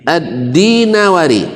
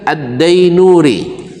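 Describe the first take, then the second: First: Four syllables follow, starting with 'di'. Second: Three syllables follow, starting with 'dai'. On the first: The speaker calls it right. "yang benar adalah Ad-Dinawari" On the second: The speaker calls it wrong. "Rata-rata buya kita mengajarkan Ad-Dainuri"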